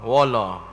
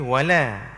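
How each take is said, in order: First: The L is pronounced thick and heavy. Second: The L is pronounced thin and light. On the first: The speaker calls it wrong. "bila ditebal dia akan bunyi wala" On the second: The speaker calls it right. "kalau nipis wala"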